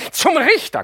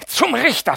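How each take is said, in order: First: „zum Richter“ screeched even higher and louder; higher shriek. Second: High, loud shriek on „Zum Richter“. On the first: Mascha screeches „zum Richter“ again at the aunt, higher. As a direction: top the first cry with a shrill scream. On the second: Mascha shrieks „Zum Richter“ at the aunt, high and loud. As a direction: screech „Zum Richter“ at her. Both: Acted. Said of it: "kreischt Mascha".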